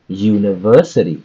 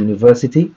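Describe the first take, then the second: First: The word stress is strong and clear. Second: The word stress is weak and unclear. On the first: The speaker calls it right. "we can say university" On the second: The speaker calls it wrong. "instead of saying uh, u- university"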